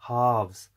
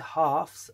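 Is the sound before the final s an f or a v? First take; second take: v; f. First: The plural is said with a v sound. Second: The plural is said with an f sound. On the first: The speaker calls it right. "I say 1/2s" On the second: The speaker calls it wrong. "I don't say 1/2s"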